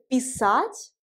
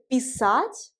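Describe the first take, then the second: First: The stress is on the second syllable. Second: The same.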